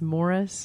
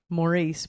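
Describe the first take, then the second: First: The name is said like English Morris. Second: The name is said like French Maurice. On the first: The speaker calls it right. "but it's Morris" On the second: The speaker calls it wrong. "I want to say Maurice"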